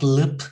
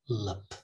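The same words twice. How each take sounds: First: The vowel is a full, clear vowel. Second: The vowel is reduced to a schwa. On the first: The speaker calls it wrong. "Not lip" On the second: The speaker calls it right. "but lip, okay? Schwa"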